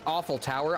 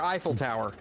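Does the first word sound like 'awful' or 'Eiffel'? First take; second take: awful; Eiffel. First: The first word sounds like 'awful'. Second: The first word sounds like 'Eiffel'. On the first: The speaker calls it wrong. "Not awful tower" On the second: The speaker calls it right.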